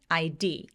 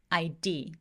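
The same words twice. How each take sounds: First: The stress is pushed onto the last letter. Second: The same.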